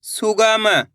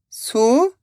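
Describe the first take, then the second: First: Said in the usual way. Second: सुगम split into separate syllables. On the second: Shown as a demonstration. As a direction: sound out सुगम with gaps between syllables. (सुगम को एक-एक अक्षर अलग करके) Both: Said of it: "एक अक्षर का उच्चारण करके".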